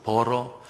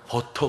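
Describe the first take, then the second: First: The middle consonant is a soft flapped r. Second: The middle consonant is a clear t sound. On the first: "혀만 굴리면" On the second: "버터 그러지 않고"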